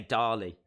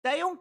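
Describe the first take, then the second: First: "Dali" in two syllables, low and falling; low, matter-of-fact DAH-lee for "Dali"; Mexican pronunciation. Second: "Dale" as one syllable, high and rising; higher, questioning "Dale", rhyming with pale; English name Dale. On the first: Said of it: "In Mexico, they say". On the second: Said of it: "That's how I would say Dale". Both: Shown as a demonstration.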